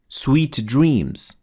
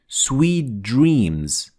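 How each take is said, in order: First: The T and D are pronounced as separate sounds. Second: The T and D merge into one sound. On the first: The speaker calls it wrong. "we don't say sweet dreams" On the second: The speaker calls it right. "So we say sweet dreams, We fuse the T with the D into one letter"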